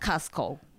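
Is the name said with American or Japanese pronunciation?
American. It is said with American English pronunciation. The speaker calls it right.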